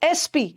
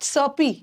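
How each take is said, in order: First: It begins with an e vowel before s. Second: It begins directly with an s sound. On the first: The speaker calls it right. "This is एसपी" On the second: The speaker calls it wrong. "This is not सपी"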